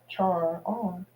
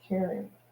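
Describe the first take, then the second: First: The word begins with a 'ch' sound. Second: The word begins with a 'k' sound. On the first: This is how the spelling looks. "it looks like" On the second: This is the listed pronunciation. "the pronunciation listed here is Karen"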